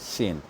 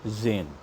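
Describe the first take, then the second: First: The word begins with an S sound. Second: The word begins with a Z sound. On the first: The speaker calls it right. "it's pronounced as sane" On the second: The speaker calls it wrong. "and not Zain"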